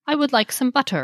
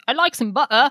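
First: "butter" with a crisp, clearly sounded T; "I would like some butter" with a sharp T in "butter"; transatlantic butter. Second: "butter" said British, ending "buttah" with no R; British accent on "I like some butter". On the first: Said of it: "you pronounce the T". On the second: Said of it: "As opposed to British". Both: Shown as a demonstration.

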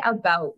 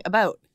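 First: "about" with the Canadian vowel, close to "a boot". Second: "About" said with the Canadian vowel. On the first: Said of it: "he thinks I say about weird". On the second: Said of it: "a very Canadian, like, Midwest thing". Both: Shown as a demonstration.

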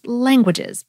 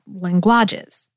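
First: Languages said with the stress on the first syllable, LAN-guages; correct stress. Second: Languages said slowly and lower, stress moved to the middle, lan-GUA-ges; wrong stress shown. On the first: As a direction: lean on LAN in languages and keep the last two syllables light. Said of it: "Think of how the word is languages". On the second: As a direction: drag out languages with the weight on GUA, as the wrong version. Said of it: "not languages". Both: Shown as a demonstration.

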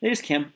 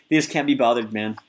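First: Said in the usual way. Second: Attempted Australian accent; Aussie accent. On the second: Shown as a demonstration. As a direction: try an Australian accent, lightly. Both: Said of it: "I'm gonna try to do an Aussie accent".

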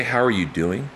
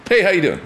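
First: Higher, rising question with ARE leaned on; sincerely interested question. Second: High, loud, tossed-off hello with HEY punched; breezy passing greeting. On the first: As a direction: ask as if staying to hear the answer. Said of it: "like, really know how you're doing". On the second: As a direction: toss it out in passing, expecting no answer. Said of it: "is more of a greeting". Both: Shown as a demonstration.

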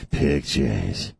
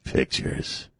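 First: Low breathy leering voice; creepy voice. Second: Hushed breathy creep; creepy voice. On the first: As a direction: drop low and leer it. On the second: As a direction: leer the word like a creep. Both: Pretend. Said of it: "This is my creepy voice".

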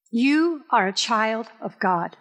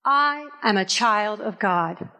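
First: Slow, stress on you, spoken to the congregation; slow declaration. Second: Slow, stress on I, for the people to repeat; call and response. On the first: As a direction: lean on you, say it slowly. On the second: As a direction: lead the repeat, hit I. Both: Shown as a demonstration. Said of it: "I want you to say it with me".

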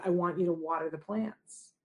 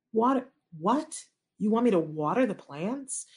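First: Said in the usual way. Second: Retold mild incredulity; baffled disbelief. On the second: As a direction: echo the instruction as if it makes no sense. Mother baffled by the odd instruction.

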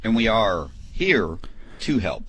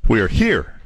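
First: Slowed-down slogan read; slow slogan delivery. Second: "We are here" with the weight moved onto "here", falling; slogan re-stressed on "here"; shifted emphasis. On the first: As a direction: stretch out "And we are here", slow and deliberate. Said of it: "I gotta change it up". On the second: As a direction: punch "here" and let it drop. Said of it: "change the, uh, emphasis on the other syllable". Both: Shown as a demonstration.

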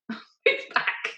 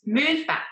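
First: Laughing through it. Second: Half-mock order to step away; mock bossy order. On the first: Retold or imitated. Rider repeats her order to the paramedic, laughing. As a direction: Move back squeaked out high through giggles. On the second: Stubborn rider tells the paramedic to back off, mock insistent. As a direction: Move higher, pushed and insistent. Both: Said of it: "And I'm saying to him".

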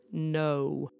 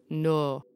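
First: "no" gliding from oh into oo; bendy diphthong. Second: "no" as one pure long "noh"; flat monophthong. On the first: Explaining other accents, bendy two-vowel "no". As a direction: bend the vowel in "no". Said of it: "a diphthong or a bendy vowel". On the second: Explaining accents, flat single-vowel "no". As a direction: draw "no" out on one unbending vowel. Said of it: "a single flat vowel". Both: Shown as a demonstration.

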